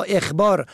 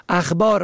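First: اخبار as "ekhbār"; short "e" opening اخبار; kasra on first letter. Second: اخبار as "akhbār"; fatha on first letter. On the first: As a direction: say اخبار as ekh-bār. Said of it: "به کسر اول". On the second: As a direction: open "a" opening اخبار. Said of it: "به فتح اول". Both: Shown as a demonstration.

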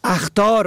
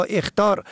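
First: اخطار as "akhtār"; fatha on first letter. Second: اخطار as "ekhtār"; short "e" opening اخطار; kasra on first letter. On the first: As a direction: open "a" opening اخطار. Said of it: "به فتح اول". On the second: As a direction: say اخطار as ekh-tār. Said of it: "به کسر اول". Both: Shown as a demonstration.

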